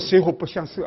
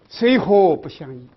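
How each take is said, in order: First: The final syllable is pronounced 'she'. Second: The final syllable is pronounced 'yi'. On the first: The speaker calls it wrong. "不要读水火不相色啊" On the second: The speaker calls it right. "记住啊，水火不相宜，不要读错"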